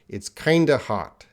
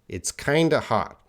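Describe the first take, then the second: First: Kind of is reduced to one word, kinda. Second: The same.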